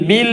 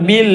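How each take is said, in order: No difference in how they are said.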